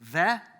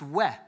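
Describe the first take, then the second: First: The word begins with a v sound. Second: The word begins with a w sound. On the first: The speaker calls it wrong. "If you're European, you'll probably pronounce it um, the, but that would be wrong" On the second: The speaker calls it right. "it's pronounced we"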